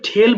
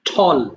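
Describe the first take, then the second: First: The vowel sounds like the 'e' in 'bell'. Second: The vowel sounds like the 'aw' in 'saw'. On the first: The speaker calls it wrong. "এটা ঠেল বলো না কেউ" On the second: The speaker calls it right.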